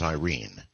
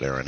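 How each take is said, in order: First: "Irene" said eye-REEN; pronounced Irene. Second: "Airyn" said like "Aaron", AIR-in; pronounced Airyn. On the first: Host giving wife's real name, pronounced Irene, eye-REEN. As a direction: say "Irene" with an opening like "eye" and a long ee. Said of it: "it's actually pronounced Irene here". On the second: Host explaining his wife's name, pronounced Airyn, AIR-in. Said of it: "even some Filipinos pronounce it". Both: Shown as a demonstration.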